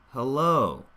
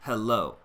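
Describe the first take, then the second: First: The stress is on the second syllable. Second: Both syllables get equal stress. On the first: The speaker calls it right. "But then low, oh, we want that shape of stress" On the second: The speaker calls it wrong. "I'm hearing these as pretty equal stress"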